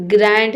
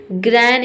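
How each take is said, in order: First: ग्रैंड ending in a clear D; D sounded. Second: ग्रैंड cut to "gran", no D; silent D. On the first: Teacher rejects this reading, ग्रैंड with sounded D. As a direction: voice the final D of ग्रैंड. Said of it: "नहीं". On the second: Teacher models the right reading, ग्रैंड with silent D. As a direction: drop the final D of ग्रैंड. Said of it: "इसे पढ़ेंगे". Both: Shown as a demonstration.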